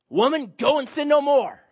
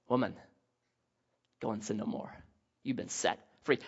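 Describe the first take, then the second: First: Loud, high, stern condemnation; harsh loud rebuke. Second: Much softer, lower, kind release; tender and gentle. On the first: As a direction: bark it as a harsh judgment. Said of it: "how did he say that". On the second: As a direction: say it gently, setting her free. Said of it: "How do you say it". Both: Shown as a demonstration.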